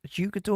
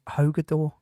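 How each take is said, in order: First: The name starts with an English J sound. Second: The name starts with an H sound. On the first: "with the J?" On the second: "pronounced with an H?"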